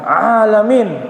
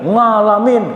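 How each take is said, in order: First: The word begins with a plain vowel sound. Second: The word begins with an ng sound. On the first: The speaker calls it right. "bukan nga, ah" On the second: The speaker calls it wrong. "Masa ngalamin"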